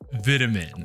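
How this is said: It is said with a British pronunciation. "how the British say these words"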